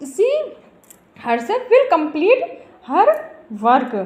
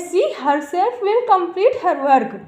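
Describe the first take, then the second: First: She, herself, will complete, her, work, each set apart by pauses; word by word. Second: Drawn out slowly, stress on will; slow example sentence. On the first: Teacher repeating the sentence word by word for students. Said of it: "जहाँ पर दृढ़तापूर्वक complete किया जा रहा है". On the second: Teacher reading an example sentence to students, slowly and emphatically. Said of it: "एक example लेते हैं". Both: Shown as a demonstration.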